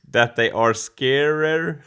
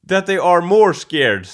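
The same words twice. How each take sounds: First: Scarer said slowly as a try; wrong form. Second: More scared said louder with more stressed; corrected form. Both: Shown as a demonstration. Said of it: "That's how you do it".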